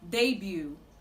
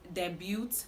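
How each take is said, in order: First: The final T is silent. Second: The final T is pronounced. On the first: The speaker calls it right. "The T in this word is silent" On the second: The speaker calls it wrong. "commonly pronounced debut"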